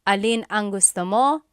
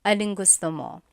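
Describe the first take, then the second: First: The two words alin and ang are said separately. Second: The two words are merged into one word, aling. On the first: "alin ang" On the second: "becomes aling"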